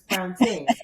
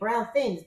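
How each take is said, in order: First: The second word starts with a t sound. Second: The second word starts with a th sound. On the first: The speaker calls it right. "but it's Brown Tings, correct?" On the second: The speaker calls it wrong. "I was going to say Brown Things"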